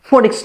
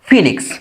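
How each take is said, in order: First: The first vowel sounds like 'o'. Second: The first vowel sounds like 'ee'. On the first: The speaker calls it wrong. "নয়" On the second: The speaker calls it right. "এটা উচ্চারণ হলো ফিনিক্স"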